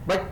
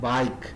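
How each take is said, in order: First: The vowel is short and clipped. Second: The vowel is long and drawn out. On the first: The speaker calls it wrong. "ಬೈಕ್ ಅನ್ನಲ್ಲ ನಾವು" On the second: The speaker calls it right. "ಐ vowel sound ನ long form"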